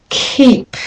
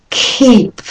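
Both takes have the same delivery.

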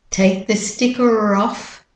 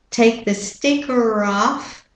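The two takes are said the same way.

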